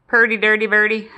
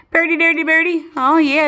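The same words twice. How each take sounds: First: Said in the usual way. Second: Higher sing-song pet talk. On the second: Real, not acted. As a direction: coo it up high to the bird. Repeats higher to bird.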